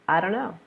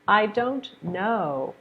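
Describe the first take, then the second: First: The T in don't is dropped. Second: The T in don't is pronounced.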